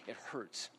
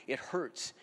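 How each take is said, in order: First: "It hurts" dropped to a much softer, lower murmur; hushed echo. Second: Said in the usual way. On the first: Real, not acted. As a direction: let "It hurts" fall away almost under the breath. Repeating it hurts, second softer.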